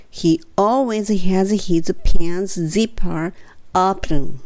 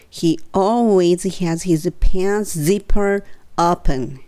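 The two takes are said the same way.

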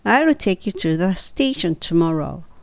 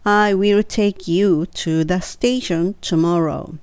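First: I will is contracted into one short syllable. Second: I will is said as two full words.

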